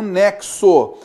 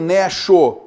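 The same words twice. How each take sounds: First: The x is said as two sounds, k-s. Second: The x is said as a single sound. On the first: The speaker calls it right. "mas vai haver um nexo" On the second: The speaker calls it wrong. "não vai haver um nexo"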